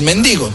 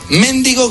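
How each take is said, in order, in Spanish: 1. El acento está en la segunda sílaba. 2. El acento está en la primera sílaba.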